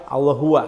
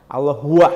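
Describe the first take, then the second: Both takes have the same delivery.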